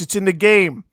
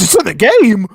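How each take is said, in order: First: The voice is deep and resonant. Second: The voice is high and quick. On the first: "So deep and deep and like resonant" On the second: "Opposite of what I do. Usually you do slow and deep"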